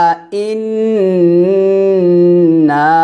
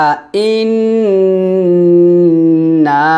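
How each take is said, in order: No difference in how they are said.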